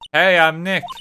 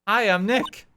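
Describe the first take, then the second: First: It is said loudly. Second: It is said quietly.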